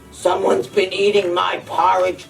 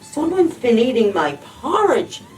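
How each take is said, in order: First: It is growled in Daddy Bear's deep voice. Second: It is gasped in Mommy Bear's breathless voice.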